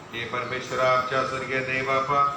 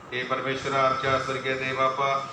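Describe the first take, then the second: The two takes are said the same way.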